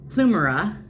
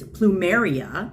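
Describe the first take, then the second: First: The word ends in a short '-mera' sound. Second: The word ends in a longer '-meria' sound. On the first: The speaker calls it wrong. "I am pronouncing it wrong" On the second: The speaker calls it right. "it's Plumeria"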